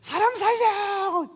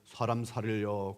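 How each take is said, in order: First: It is shouted as loud as possible. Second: It is said quietly and politely.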